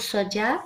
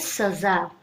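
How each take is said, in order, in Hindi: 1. बीच का व्यंजन j की आवाज है। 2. बीच का व्यंजन z की आवाज है।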